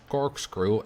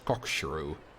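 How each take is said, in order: First: The word ends with a 'screw' sound. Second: The word ends with a 'shrew' sound. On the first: The speaker calls it right. "pronounced it in a bit, you know, correctly" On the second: The speaker calls it wrong. "I used to pronounce corkscrew as cockshrew"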